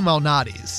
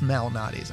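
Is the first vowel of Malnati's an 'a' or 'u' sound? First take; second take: u; a. First: The first vowel sounds like a 'u'. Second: The first vowel sounds like an 'a'. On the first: "I say it Lou Malnati's. Kind of more with a U" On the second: "Maybe it is Malnati's"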